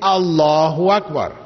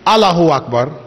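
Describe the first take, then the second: First: The vowel after 'Alla' is long. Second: The vowel after 'Alla' is short. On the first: The speaker calls it right. "There is an alif there, so you must say" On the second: The speaker calls it wrong. "You cannot say"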